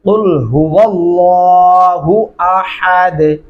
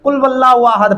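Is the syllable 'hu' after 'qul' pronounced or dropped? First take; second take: pronounced; dropped. First: The syllable hu after qul is pronounced. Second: The syllable hu after qul is dropped. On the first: The speaker calls it right. "इसको सही तरीके से कैसे पढ़ना है?" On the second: The speaker calls it wrong. "इस तरह पढ़ना बहुत बड़ी गलती है।"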